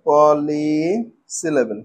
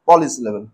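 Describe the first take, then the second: First: "পলিসিলেবেল" slow and low, "পলি" held long; broken into syllables. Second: Said in the usual way. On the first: Shown as a demonstration. Teacher introducing the last type, "পলিসিলেবেল" slowly drawn out. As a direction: stretch out the first part of "পলিসিলেবেল". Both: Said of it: "ছোট ছোট টুকরো করে ভাঙবো".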